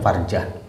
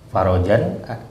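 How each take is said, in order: First: The r and j come together without a vowel. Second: A vowel is inserted between r and j. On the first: The speaker calls it right. "tapi yang benar adalah farjah" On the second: The speaker calls it wrong. "ada yang nyebut farojan"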